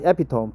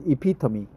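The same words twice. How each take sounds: First: "epitome" as EP-i-tome, three syllables; "epitome" with a silent final e; mispronounced. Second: "epitome" as ih-PIT-uh-mee, four syllables; the right "epitome", ending in "mee"; correct pronunciation. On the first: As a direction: say "epitome" wrongly, rhyming its end with home. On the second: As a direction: put the stress of "epitome" on PIT. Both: Shown as a demonstration. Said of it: "Not epitome, but epitome".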